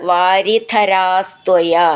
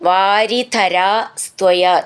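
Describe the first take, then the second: First: The two words run together without a break. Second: There is a break between the two words.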